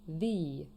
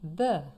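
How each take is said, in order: First: The article is said in its before-vowel form. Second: The article is said in its everyday form. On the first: "sometimes the direct article could also be pronounced the" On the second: "The is a little bit easier, so let's practice together"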